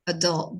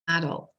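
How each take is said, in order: First: It is said with an American stress pattern. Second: It is said with a British stress pattern. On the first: "in American English is adult" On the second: "in British English is adult"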